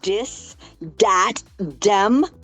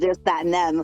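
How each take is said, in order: First: The words begin with a d sound. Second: The words begin with a th sound. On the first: It is the Cajun way of speaking. "that's how the Cajuns say it" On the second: It is the standard way of speaking. "instead of"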